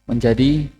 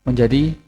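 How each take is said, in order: Both takes have the same delivery.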